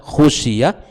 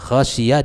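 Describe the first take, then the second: First: The first vowel is a 'u' sound. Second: The first vowel is an 'a' sound. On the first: The companions were the ones who feared. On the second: The Prophet was the one who feared. "dengan fathah kha"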